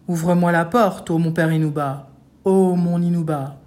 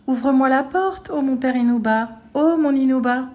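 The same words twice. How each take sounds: First: Loud, heavy chanted ogre voice; ogre's big voice. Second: High, clear chanted ogre voice; thin singsong ogre. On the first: Ogre at the hovel door, in his big voice. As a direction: intone it in a big, gruff ogre's voice. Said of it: "dit de sa grosse voix". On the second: Ogre imitates the girl at the door, singsong. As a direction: chant in a falsely fine, girlish voice. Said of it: "chantonna devant sa masure". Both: A narrator's reading.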